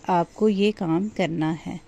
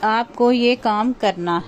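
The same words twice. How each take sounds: First: It is said in a soft, gentle voice. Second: It is said in a flat, level voice.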